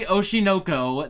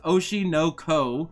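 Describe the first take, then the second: First: The name is run together as one word. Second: The name is split into three separate words. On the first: The speaker calls it wrong. "Don't say Oshinoko" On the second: The speaker calls it right. "It's three separate words"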